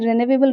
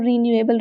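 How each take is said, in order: First: It begins with a short, reduced 'ri' sound. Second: It begins with a full 'ree', like 're-new'. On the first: "normal cases में रिन्यूएबल resources भी pronounce किया जाता है" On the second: "actual में वो रीन्यूएबल resource है"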